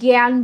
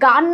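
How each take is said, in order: First: The vowel is a gliding 'yah' sound. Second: The vowel is a plain open 'ah'. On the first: The speaker calls it right. "অ্যা এর মতো উচ্চারিত হবে" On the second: The speaker calls it wrong. "গান না বলে"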